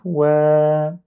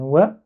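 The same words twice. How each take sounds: First: "Wa" with the vowel held; "Wa" prolonged like "wèèè"; long vowel. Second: Said in the usual way. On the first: Shown as a demonstration. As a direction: draw "Wa" out on a level note. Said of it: "avec fatha suivi d'un alif". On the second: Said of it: "waw avec fatha, ça donne wa".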